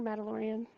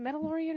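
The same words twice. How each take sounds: First: Mandalorian with a short "a" as in "mad"; second pronunciation option. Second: Mandalorian with an "eh" in the first syllable, like "Mendalorian"; first pronunciation option. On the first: Unsure speaker offering another way to say the show's name, Mandalorian with short "a". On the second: Unsure speaker offering one way to say the show's name, Mandalorian as "Mendalorian". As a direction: say Mandalorian as "MEN-da-lorian". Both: Shown as a demonstration. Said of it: "is it Mandalorian or Mandalorian".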